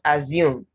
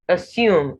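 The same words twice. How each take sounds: First: The middle consonant is a buzzing z sound. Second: The middle consonant is a hissing s sound. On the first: The speaker calls it wrong. "not assume. I've not come across any English word in which you have two S's representing the sound z" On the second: The speaker calls it right. "you have assume"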